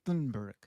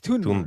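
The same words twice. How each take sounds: First: The name begins with a 'th' sound. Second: The name begins with a plain 't' sound. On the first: The speaker calls it wrong. "because there's T H, right?" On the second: The speaker calls it right. "but it's Thunberg"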